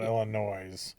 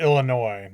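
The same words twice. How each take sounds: First: Illinois with the S voiced, ending in "noise"; sounded final S. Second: Illinois with a silent S, ending in "noy"; silent final S. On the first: Showing a co-host the wrong way, Illinois ending in Z. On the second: Correcting a co-host's pronunciation, Illinois with silent S. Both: Shown as a demonstration. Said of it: "The S is silent".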